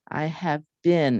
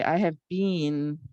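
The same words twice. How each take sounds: First: The vowel in 'been' is short, like 'bin'. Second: The vowel in 'been' is long, like 'bean'. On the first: This is how the word is pronounced now. The speaker calls it right. "I say I have been" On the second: This is how the word used to be pronounced. The speaker calls it wrong. "I don't say I have been"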